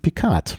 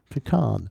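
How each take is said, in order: First: The name ends with a t sound. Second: The name ends with a d sound. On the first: "Picard mit T hinten" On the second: "Mit D"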